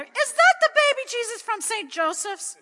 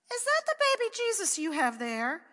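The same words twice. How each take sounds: First: High, loud disbelieving question; a mother who can't believe her eyes; higher, louder shocked question; astonished mother. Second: Put-on high, loud child's question; a small boy amazed at his sister; higher, louder child's question; little boy asking. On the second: Pat asks his sister. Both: A narrator's reading.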